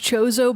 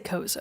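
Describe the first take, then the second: First: The name begins with a 'ch' sound. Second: The name begins with a 'k' sound. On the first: This is the technically correct way of saying it. "technically pronounced Chozo" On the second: This is the speaker's own habitual way of saying it. "I say Kozo"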